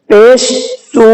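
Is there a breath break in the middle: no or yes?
yes. There is a breath break after the first sound. The speaker calls it right. "इस तरह से हम पढ़ेंगे सांस तोड़ के पेश पर"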